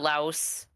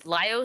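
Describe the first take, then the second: First: The name sounds like the country Laos. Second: The name sounds unlike the country Laos. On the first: The speaker calls it wrong. "I keep pronouncing it Laos, like the country" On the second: The speaker calls it right. "Laios, yeah"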